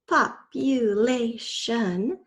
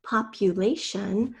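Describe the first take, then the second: First: "Population" very slow, four separate beats; syllable by syllable. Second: Said in the usual way. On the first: Shown as a demonstration. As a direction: stretch out each syllable of "Population", ending on a rise. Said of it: "The fourth spell, syllable is". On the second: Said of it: "First, say the whole word".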